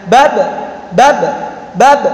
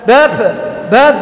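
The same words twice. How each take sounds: First: "Bab" checked on the last b; held sound. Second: "bab" with a loose, let-go final b; released sound. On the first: Teacher repeating the tertahan model, held sound. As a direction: stop the final b of "Bab" briefly. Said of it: "bab tertahan". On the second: Teacher showing tidak kayak gitu, released sound. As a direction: let the last b of "bab" leak out unstopped. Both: Shown as a demonstration.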